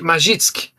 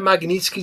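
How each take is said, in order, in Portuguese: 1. O nome omite o som do 'n' depois do 'g'. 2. O nome mantém o som do 'n' depois do 'g'. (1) "Ele fala ma magi Magitsky" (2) "Ele nem pronuncia Magnitsky direito"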